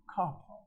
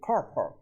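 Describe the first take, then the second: First: The R sounds after the vowels are dropped. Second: The R sounds after the vowels are pronounced. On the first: "Britishers would say car park, car park. That means there is no R" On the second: "in the American society, over a period of time, it has become fashionable to say car park. So that R pronunciation has come back"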